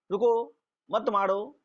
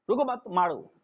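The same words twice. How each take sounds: First: रुको alone, pause, then मत मारो together; pause after रुको. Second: रुको मत run together, then मारो; pause after मत. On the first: Teacher showing the class two readings, pause after रुको. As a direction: break after रुको, keep मत मारो joined. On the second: Teacher showing the class two readings, pause after मत. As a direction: join रुको to मत, break before मारो. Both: Shown as a demonstration. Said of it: "ये दोनों word है".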